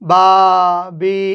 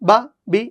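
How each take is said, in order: First: The syllables are drawn out slowly. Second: The syllables are said short and quick. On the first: The speaker calls it wrong. "এরকম দেরি করে হবে না" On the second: The speaker calls it right. "Normal"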